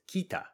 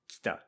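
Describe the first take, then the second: First: The first vowel is clearly voiced. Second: The first vowel is nearly silent. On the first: The speaker calls it wrong. "we don't pronounce it as kita" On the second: The speaker calls it right. "we make the first vowel mostly silent"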